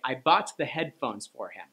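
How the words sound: The stress falls on the word headphones. The thing bought was the headphones. "you were trying to draw attention to the headphones"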